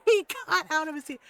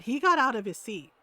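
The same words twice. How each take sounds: First: Higher, louder, breaking into laughter; laughing. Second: Said in the usual way. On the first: Real, not acted. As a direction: repeat it through real laughter. Cracks up repeating the line.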